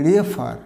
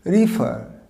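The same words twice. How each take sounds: First: Refer said "reh-FAAR", with an "e"; wrong-example refer, "e" in the first syllable; mispronounced refer. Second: রিফার with an "i" first vowel, "ri-FUR"; corrected রিফার. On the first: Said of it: "না, this is not". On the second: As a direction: say রিফার as "ri-fur", final r silent. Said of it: "এর উচ্চারণটা হবে". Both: Shown as a demonstration.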